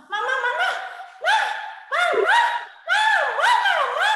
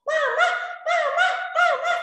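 First: Put-on high, loud child calling Mama over and over; a child pestering mother for attention; whiny child calling. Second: Put-on high child calling Mama; whiny child calling. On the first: Child interrupting his mother, high insistent calling. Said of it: "Dia, dia bilang gitu". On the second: Shown as a demonstration. Teacher demonstrating rude child, high whiny calling. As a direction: show the rude interrupting call. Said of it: "tidak boleh bilang".

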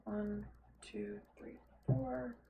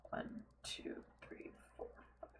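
First: Said in the usual way. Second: Breathy whispered numbers; whispered counting. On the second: Real, not acted. Counting blocks under breath.

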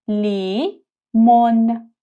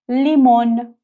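First: لیمون stretched very slowly; slow syllable demo. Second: لیمون with a clear l; Turkish word limon. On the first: (لیمون آهسته و کشیده) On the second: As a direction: say لیمون a bit louder. (لیمون با ل واضح) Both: Shown as a demonstration. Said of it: "تلفظ این حرف ل".

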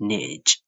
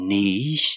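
First: Niche as "nitch"; short i and ch ending in niche; American niche. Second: Niche as "neesh"; British niche. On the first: Teacher shows they differ, niche as "nitch". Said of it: "ချအသံလေးနဲ့". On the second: Teacher shows they differ, Niche as "neesh". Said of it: "U K လို့ခေါ်တဲ့ British accent". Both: Shown as a demonstration.

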